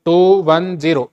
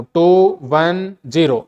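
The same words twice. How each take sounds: First: Said in the usual way. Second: टू वन ज़ीरो slow, each digit apart: टू, वन, ज़ीरो. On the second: Shown as a demonstration. Teacher shows students to read टू वन ज़ीरो digit by digit, slowly. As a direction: spell out टू वन ज़ीरो one slow digit at a time. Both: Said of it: "इसको अलग अलग बोलना आपको".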